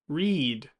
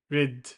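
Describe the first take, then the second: First: The vowel is long and tense. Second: The vowel is short and lax. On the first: The speaker calls it right. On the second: The speaker calls it wrong.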